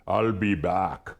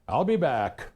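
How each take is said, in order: First: It is said in a put-on Austrian accent. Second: It is said in the speaker's normal accent.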